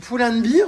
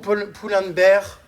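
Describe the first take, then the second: First: The last word rhymes with the English 'beer'. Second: The last word rhymes with the English 'bear'. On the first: "On dit Pull&Beer ou Pull&Bear?" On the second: "On dit Pull&Beer ou Pull&Bear?"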